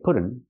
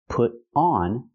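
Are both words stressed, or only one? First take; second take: one; both. First: Only one of the two words is stressed. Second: Both words carry equal stress. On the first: The speaker calls it wrong. "We can't say put on" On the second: The speaker calls it right. "We have to stress both words"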